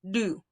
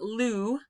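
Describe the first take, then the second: First: It starts with a quick tongue flap. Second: It starts with a clear L sound. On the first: The speaker calls it right. "It's just a tongue flap" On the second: The speaker calls it wrong. "it's not lu"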